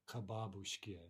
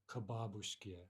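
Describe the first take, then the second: The two takes are said the same way.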